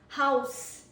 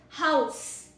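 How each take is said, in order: First: The word ends with an s sound. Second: The same.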